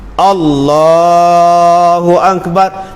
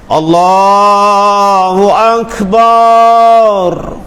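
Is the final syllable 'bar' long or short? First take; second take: short; long. First: The final syllable is kept short. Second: The final syllable is drawn out long. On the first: The speaker calls it right. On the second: The speaker calls it wrong.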